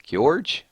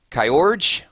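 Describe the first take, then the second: First: Kyorge said as kyorge, one glide; second try at name. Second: Kyorge said as KY-orge, kai sound; first try at name. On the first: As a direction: Kyorge with a quick y, kyorj. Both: Shown as a demonstration. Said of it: "I'll try to say it fast".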